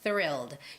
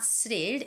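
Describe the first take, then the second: First: The word begins with a th sound. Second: The word begins with an s sound. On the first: The speaker calls it right. "You have to stick out your tongue" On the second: The speaker calls it wrong. "It's not S. It's not thrilled"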